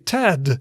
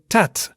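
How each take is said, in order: First: The final consonant is a voiced D sound. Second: The final consonant is a voiceless T sound. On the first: "in English you would say" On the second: "in Dutch you would say"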